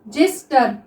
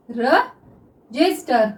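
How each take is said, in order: First: Said in the usual way. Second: register drawn out slowly, syllable by syllable; register dictated slowly to students; slow dictation. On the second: Shown as a demonstration. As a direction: stretch register out while writing it. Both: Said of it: "देखिए हम इसको किस तरह से लिखते हैं".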